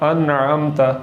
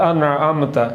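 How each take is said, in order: No difference in how they are said.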